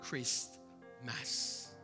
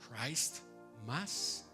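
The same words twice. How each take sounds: First: The first part does not sound like Christ. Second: The first part sounds like the word Christ. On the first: The name of Christ has been removed. The speaker calls it wrong. "le llamó Christ Mass... la pronunciación es distinta" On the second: It names Christ in the celebration. The speaker calls it right. "en lugar de decir Christ, Christ Mass"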